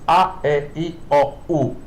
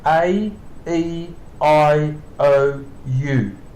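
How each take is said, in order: First: The vowels are said with sharp Italian sounds. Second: The vowels are said with English letter-name sounds. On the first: "like Italy, for example, it's A, E, I, O, U. So it's a sharper sound" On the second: "In English, we say A, E, I, O, U"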